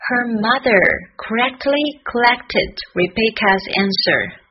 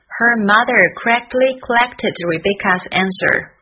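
First: Careful, slowed tongue twister; slow practice. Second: Tongue twister at a quicker pace; faster practice. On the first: Teacher easing learners into a hard tongue twister, slowly. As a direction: take the tongue twister word by word. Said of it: "我们慢慢来". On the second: Teacher showing the tongue twister sped up, somewhat quicker. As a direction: run the words together, still crisply articulated. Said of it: "从慢慢练习到加快速度". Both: Shown as a demonstration.

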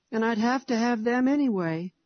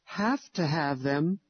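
First: Put-on higher, upset child's voice; a small boy complaining he must have them; tearful little boy. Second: Slow, puzzled mother's echo. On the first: Narrator voices little Harry. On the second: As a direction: repeat the boy's words back, questioning. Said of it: "I echoed". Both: A narrator's reading.

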